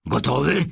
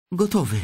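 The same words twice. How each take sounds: First: Put-on raised old-man question, rising at the end; old man asking eagerly with a lift; eager grandpa asking. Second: Put-on high boyish voice, firm falling answer; the boy confirming he is set. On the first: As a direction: grandpa checking the boy is ready. Grandpa asks before opening. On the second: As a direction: Charlie replying Gotowy, firm and high. Charlie answers.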